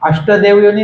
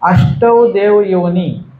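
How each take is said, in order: First: The vowel after 'asht' is a short 'a'. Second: The vowel after 'asht' is a long 'ai'. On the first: The speaker calls it wrong. "अष्टदेव योनी नाही बरं का" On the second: The speaker calls it right. "ष्टवर दोन मात्रा आहेत"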